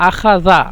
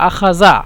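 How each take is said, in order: No difference in how they are said.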